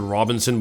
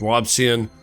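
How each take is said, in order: First: The name has three syllables, with an added n. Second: The name has two syllables, with no added n. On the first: The speaker calls it wrong. "I want to pronounce it Robinson, but it's not" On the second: The speaker calls it right. "it's Robsion"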